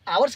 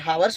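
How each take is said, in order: First: The word begins with a vowel, no h sound. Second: The word begins with an audible h sound. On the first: The speaker calls it right. "आवर्स काहे बोल रहे हैं?" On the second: The speaker calls it wrong. "जबकि हावर्स होता है"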